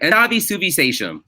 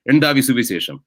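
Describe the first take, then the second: First: It is said with an American accent. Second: It is said with a Malayali accent.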